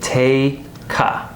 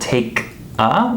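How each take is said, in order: First: The two words are linked together. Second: The two words are said separately. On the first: The speaker calls it right. "we would say take-a" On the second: The speaker calls it wrong. "instead of take a"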